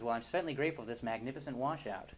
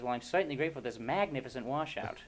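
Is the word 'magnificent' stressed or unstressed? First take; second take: unstressed; stressed. First: The word magnificent is not specially stressed. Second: The word magnificent is strongly stressed.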